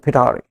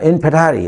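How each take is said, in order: First: The word is said with an English-style accent. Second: The word is said in a plain Hindi way.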